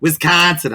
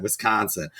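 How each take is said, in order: First: Wisconsin accent on "Wisconsin", pitched up. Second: Said in the usual way. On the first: Shown as a demonstration. Host correcting the state name, Wisconsin accent. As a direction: say "Wisconsin" with a put-on local accent. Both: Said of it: "I had the accent".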